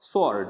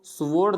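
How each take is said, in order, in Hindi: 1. 's' के बाद 'w' की कोई आवाज़ सुनाई नहीं देती। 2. 's' के बाद 'w' की आवाज़ सुनाई देती है। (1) "एस के बाद हमेशा डब्लू साइलेंट रहेगा" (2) "उसको स्वॉर्ड नहीं बोलना है"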